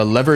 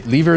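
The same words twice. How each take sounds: First: "lever" said the American way, LEV-er; American pronunciation. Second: "Lever" said the British way, LEE-ver; British pronunciation. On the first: Streamer contrasting British and American English, American pronunciation of "lever". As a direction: say "lever" with a short e, American style. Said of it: "lever is American English". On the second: Streamer contrasting British and American English, British pronunciation of "Lever". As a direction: say "Lever" with a long ee, British style. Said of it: "Lever is British English". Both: Shown as a demonstration.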